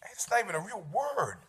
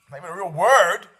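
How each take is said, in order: First: Softer, dismissive mutter of "not even a real word"; muttered objection. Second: "Not even a real word" said out firmly and louder; louder retort. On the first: Imagined listener doubting the made-up word, softly dismissive. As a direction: grumble it to yourself. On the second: Host repeating the objection to the audience, louder and firmer. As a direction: push the words out like a complaint to the room. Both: Pretend.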